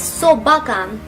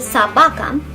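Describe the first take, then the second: First: The first vowel sounds like O. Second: The first vowel sounds like A. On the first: It sounds rural. The speaker calls it wrong. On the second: It sounds standard. The speaker calls it right.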